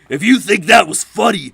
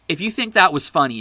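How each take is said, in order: First: It is said in a put-on mocking voice. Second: It is read in the speaker's normal voice. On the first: The speaker calls it right. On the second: The speaker calls it wrong.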